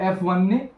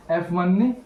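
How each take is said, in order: Both takes have the same delivery.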